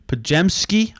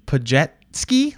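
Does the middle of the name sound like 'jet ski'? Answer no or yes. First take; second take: no; yes. First: The middle does not sound like 'jet ski'. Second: The middle sounds like 'jet ski'. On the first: The speaker calls it right. "I'm almost positive his last name is pronounced Pajemski" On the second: The speaker calls it wrong. "announcers pronounce it like Pajetski, like the thing you use on water"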